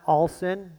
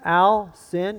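First: The first syllable sounds like the word all. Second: The first syllable sounds like the name Al. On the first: The speaker calls it wrong. "my last name is not All Sin" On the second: The speaker calls it right. "It's the name Al and the word sin"

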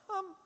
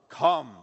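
First: It is said weakly and quietly. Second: It is called out loudly and powerfully.

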